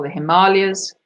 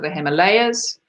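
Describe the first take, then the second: First: Himalayas said hi-MAH-lee-uhz; alternative pronunciation. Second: Himalayas said him-uh-LAY-uhz; Himalayas, third syllable rhyming with day; first pronunciation. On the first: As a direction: stress the long MAH in Himalayas. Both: Shown as a demonstration. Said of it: "however you wish to pronounce it".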